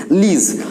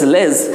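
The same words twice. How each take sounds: First: লিজ said with a short i, lij not lej; correct lij. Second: লেজ said as plain lej with the open e; the common lej ending, the wrong way. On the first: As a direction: give লিজ the short i sound. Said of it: "এই অংশটুকুর সঠিক উচ্চারণ হয় লিজ". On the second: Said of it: "এই অংশটুকুর উচ্চারণ লেজ নয়". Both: Shown as a demonstration.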